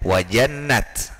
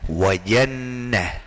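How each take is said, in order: First: The word ends with a t sound. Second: The word ends with an h sound. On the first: The speaker calls it wrong. "Tidak boleh dibaca wajannat" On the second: The speaker calls it right. "tapi dibaca wajannah"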